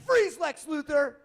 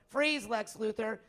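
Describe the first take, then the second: First: It is said in a put-on heroic character voice. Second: It is said in a plain, everyday voice. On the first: The speaker calls it right. "You went" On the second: The speaker calls it wrong. "you didn't go"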